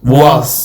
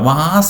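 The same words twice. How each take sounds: First: It sounds like wuz, with a u vowel. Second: It sounds like the word vase. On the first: The speaker calls it right. "വായിക്ക് താഴെ ഒരു യുവായാക്കി നോക്കിയ വാസ്" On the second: The speaker calls it wrong. "വാസ് അല്ല. വാസ് എന്ന് പറഞ്ഞാൽ അത് മറ്റേ flower വാസ്"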